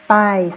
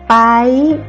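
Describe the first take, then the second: First: The word is said on a level mid tone. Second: The word is said on a high tone. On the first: "le ton normal c'est paille" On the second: "c'est haut"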